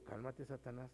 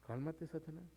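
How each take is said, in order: First: Softly muttered "Cálmate, Satanás"; soft inner rebuke. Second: Softer repeat of cálmate, Satanás; soft calm rebuke. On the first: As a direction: say it under your breath. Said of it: "yo por eso digo". ("Cálmate, Satanás" dicho muy bajo, para uno mismo) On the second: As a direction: hush them down gently. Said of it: "es válido decirle". (repetir "cálmate, Satanás" más bajo y suave) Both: Retold or imitated.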